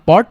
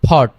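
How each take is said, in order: First: The p is said without a puff of air. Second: The p is said with a puff of air. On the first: The speaker calls it wrong. "আগে আমরা বলতাম" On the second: The speaker calls it right. "এখন থেকে আজকে কি বলবো?"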